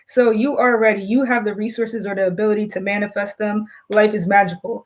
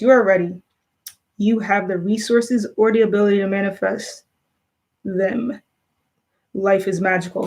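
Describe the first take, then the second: First: It is read clearly aloud to listeners. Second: It is mumbled quietly, as if read to oneself.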